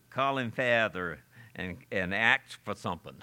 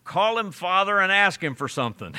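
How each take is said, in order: First: Lightly attempted old English brogue. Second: Loud, high-starting blunt call; audible reply. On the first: Preacher redoing the old man's reply, in an Old English brogue. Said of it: "he says it in the Old English brogue". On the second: Retold or imitated. Old man interrupting the stranger's long prayer, loud and blunt. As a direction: call it out sharply to cut in on a prayer. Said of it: "an old man who knew how to pray audibly replied".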